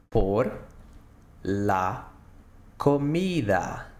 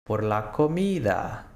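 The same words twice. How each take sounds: First: "Por", "la", "comida" split by long pauses; word by word. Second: Said in the usual way. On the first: Shown as a demonstration. Teacher to students, slow word-by-word model. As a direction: break "Por la comida" into separate words.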